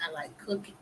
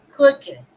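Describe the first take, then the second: First: Said in the usual way. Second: Cooking punched loud and higher, a single excited word; emphatic repeat. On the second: Real, not acted. Telling viewers her true love is cooking, Cooking said loud and emphatic. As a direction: hit Cooking hard and bright, like a declaration.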